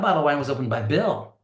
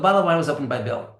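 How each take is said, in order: First: The stress falls on the word Bill. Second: The stress falls on the word bottle. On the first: The sentence answers who opened the bottle. The speaker calls it right. "You have to put stress on Bill again" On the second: The sentence is about what happened to the bottle. The speaker calls it wrong. "That answer to that question doesn't make any sense"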